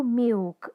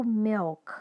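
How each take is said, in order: First: Milk said with the final l as a u vowel, like miuk; milk as a Portuguese speaker says it, miuk; wrong Brazilian milk. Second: Milk with a real dark l at the end, not a u vowel; milk said the English way, dark l kept; correct English milk. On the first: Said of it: "Eu não pronuncio milk". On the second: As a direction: say milk with the l clearly sounded. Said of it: "eu pronuncio milk". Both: Shown as a demonstration.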